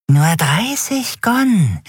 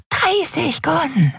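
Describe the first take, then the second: First: High, slow, drawn-out offer; creepy price pitch. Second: Creepy price pitch. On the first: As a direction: dangle the price slowly. Dealer nennt seinen Preis. (hoch, langsam, gedehnt angeboten) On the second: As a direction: coax it again, drawn out. Dealer wiederholt seinen Preis. (sehr hoch, langsam, leiser wiederholt) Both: Acted.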